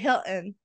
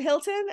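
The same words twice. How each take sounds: First: The middle T is a glottal stop. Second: The middle T is a clear T sound. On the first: "You swallow that T" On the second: "I always say the T"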